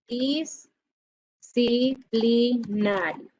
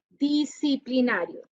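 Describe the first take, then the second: First: Disciplinario stretched out very slowly, syllable by syllable. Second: Said in the usual way. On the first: Shown as a demonstration. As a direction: drag out Disciplinario as if counting its letters. Teacher slowly spells out a word. (Disciplinario muy lento, sílaba por sílaba)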